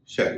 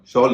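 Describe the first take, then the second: First: The vowel is an open front 'ae' sound. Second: The vowel is a rounded 'aw' sound. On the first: The speaker calls it right. "शैल होगा" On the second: The speaker calls it wrong. "इसका उच्चारण शॉल नहीं होगा"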